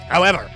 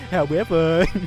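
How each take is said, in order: First: A harsh, throat-straining character voice. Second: A lighter character voice with less throat strain. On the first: The speaker calls it wrong. "I can't do this voice. It's going to destroy my throat" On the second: The speaker calls it right. "a less throat-destroying voice"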